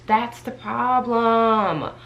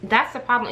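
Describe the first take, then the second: First: Each word of "That's the problem" drawn out slowly and pressed; slow emphatic repeat. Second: Said in the usual way. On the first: Real, not acted. Vlogger hammering home her demotion complaint to viewers, slow and pointed.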